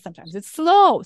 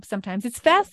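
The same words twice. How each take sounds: First: Drawn out on the word slow. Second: Quick, brisk delivery; fast. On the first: Coach showing vocal variety to listeners, slow. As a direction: stretch out "slow". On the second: Coach showing vocal variety to listeners, fast. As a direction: rattle it off fast. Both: Shown as a demonstration.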